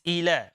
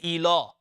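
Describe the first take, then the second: First: The L is light, soft and natural. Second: The L is heavy, with a full mouth. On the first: The speaker calls it right. "It's ila. Okay, very soft, very natural" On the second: The speaker calls it wrong. "we cannot make the lam full mouth. Okay, we don't make a tafkhim. We don't say ila"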